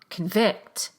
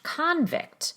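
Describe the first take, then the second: First: The stress is on the second syllable. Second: The stress is on the first syllable. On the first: It is used as a verb. "the verb convict, where the prefix is not stressed" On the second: It is used as a noun. "the noun convict, where the prefix is stressed"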